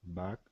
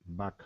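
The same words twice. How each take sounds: No difference in how they are said.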